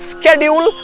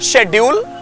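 First: The word begins with an 'sk' sound. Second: The word begins with an 'sh' sound. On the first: This is the American pronunciation. "स्केड्यूल American pronunciation" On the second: This is the British pronunciation. "शेड्यूल British pronunciation"

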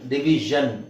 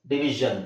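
First: The middle consonant is a voiced 'zh' sound. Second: The middle consonant is a voiced 'zh' sound.

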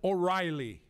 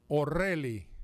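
First: The name has an English pronunciation. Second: The name has a Cuban Spanish pronunciation. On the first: "But it's O'Reilly" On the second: "as the Cubans pronounce it"

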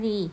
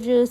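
First: The syllable ends in a clear 'ee' vowel. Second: The syllable ends in a buzzy 'r' vowel. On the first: The speaker calls it wrong. "คำนี้ไม่ได้อ่านออกเสียงว่ารีนะคะ" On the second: The speaker calls it right. "จึงอ่านออกเสียงว่ารือเหมือนเดิม"

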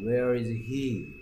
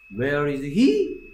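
First: The voice falls at the end. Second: The voice rises at the end. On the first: The speaker calls it right. "끝을 내려서 읽는다는 그 말이에요" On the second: The speaker calls it wrong. "가 아니고"

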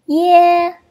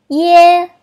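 The two takes are said the same way.

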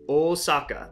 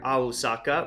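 First: The word is said as Osaka. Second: The word is said as Ahusaka. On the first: This is the modern reading. "the more modern romanization of Osaka" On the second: This is the historic kana reading. "the traditional historic reading of the kana above it"

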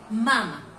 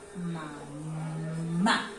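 First: The stress is on the first syllable. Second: The stress is on the last syllable. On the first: It means the child is nursing. "Si no le colocamos la tilde, diría mama" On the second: It means mother. "si a esta le colocamos una tilde aquí, nos diría mamá"

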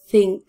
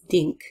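First: The word starts with a th sound, tongue out. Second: The word starts with a d sound. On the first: The speaker calls it right. "exaggerating my tongue so that you see it" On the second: The speaker calls it wrong. "if your tongue is not out, think very quickly becomes dink"

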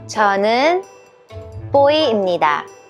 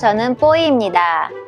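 First: It is said slowly. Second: It is said at normal speed.

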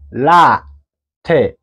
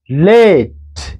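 First: The final e is sounded as a second syllable. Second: The final e is silent, one syllable only. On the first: The speaker calls it wrong. "don't say la te" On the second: The speaker calls it right. "no, it is late"

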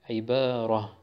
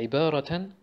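First: The word ends with a soft h sound. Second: The word ends with a -tun sound.

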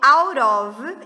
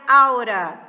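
First: The two words are said fully and separately. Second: The words merge, ending in a weak schwa. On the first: "E tem o out of" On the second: "que vira aura"

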